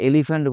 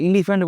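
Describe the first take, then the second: First: এলিফ্যান্ট starting on "e", as "elifant"; correct pronunciation. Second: এলিফ্যান্ট starting on "i", as "ilifant"; wrong pronunciation. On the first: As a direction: open এলিফ্যান্ট with "e", not "ee". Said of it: "আমরা এলিফ্যান্ট বলি". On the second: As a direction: open এলিফ্যান্ট with an "ee" vowel. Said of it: "এলিফ্যান্ট বলি না". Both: Shown as a demonstration.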